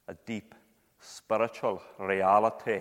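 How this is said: It is said in a broad Scottish accent.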